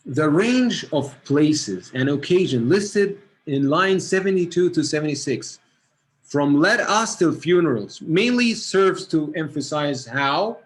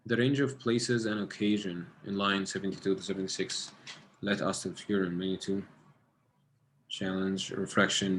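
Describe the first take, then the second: First: Louder and slow, reading out the question line by line; a teacher reading the exam question aloud, slow and loud; reading aloud to the class. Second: Quiet reading to self. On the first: Shown as a demonstration. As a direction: read it out clearly for the whole class. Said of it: "what I'm gonna read here". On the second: Real, not acted. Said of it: "Let me get it again".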